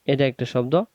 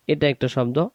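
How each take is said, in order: Both takes have the same delivery.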